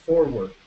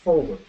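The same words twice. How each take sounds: First: "forward" with the first R voiced; "forward", R lightly pronounced; R sounded. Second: "Forward" with the first R dropped; "Forward", R not heard; silent R. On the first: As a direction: let the R be heard in "forward". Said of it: "la hacen sonar un poco". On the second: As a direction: say "Forward" leaving the R unsounded. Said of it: "la R no suena". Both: Shown as a demonstration.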